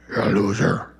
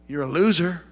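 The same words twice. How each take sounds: First: Much lower, hammed-up devil growl; mock devil voice. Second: Said in the usual way. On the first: Preacher mimics the devil taunting a believer, hammed-up low voice. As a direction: drop low and play the devil for a laugh. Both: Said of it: "he doesn't talk like that".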